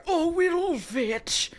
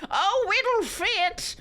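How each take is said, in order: First: Huskily. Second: Slow drawn-out husky line, high; a hammed-up husky come-on. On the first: Acted. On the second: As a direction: breathe it out huskily, stretched. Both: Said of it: "Lucas said huskily".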